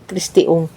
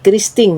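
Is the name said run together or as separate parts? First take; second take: separate; run together. First: The name is said as separate parts. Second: The name is run together into one word. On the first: The speaker calls it right. "kita baca Christy Ung" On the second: The speaker calls it wrong. "Kalau dibaca padu, tapi tidak boleh katanya kita baca padu"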